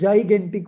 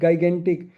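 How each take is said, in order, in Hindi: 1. यह शब्द j की आवाज़ से शुरू होता है। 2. यह शब्द हार्ड g की आवाज़ से शुरू होता है।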